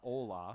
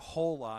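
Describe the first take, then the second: First: The h at the start is silent. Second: The h at the start is clearly sounded. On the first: This is the usual way to say it. "not hola" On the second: This is how the film's characters said it. "They actually pronounced it hola ... I love the emphasis on the H"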